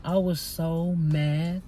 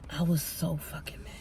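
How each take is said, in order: First: Slow, stretched-out "so mad"; drawn-out venting. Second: Hushed, whispered venting; seething whisper. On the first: Telling viewers about the argument at work, drawn-out venting. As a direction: vent it slowly, leaning on the words. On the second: Repeating to viewers how mad the coworker made her, seething whisper. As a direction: drop to a whisper, still mad. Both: Real, not acted.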